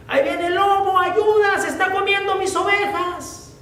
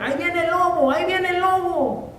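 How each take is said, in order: First: The wolf is really here, call out in panic; frightened cry for help. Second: High prank cry of a fake alarm; mock shout. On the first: Acted. Shepherd boy begging the villagers for help, panicked high cry. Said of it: "empezó a gritar". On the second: Shepherd boy fooling the village again, high fake alarm. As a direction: call out the wolf just to fool them. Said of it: "empezó nuevamente a gritar".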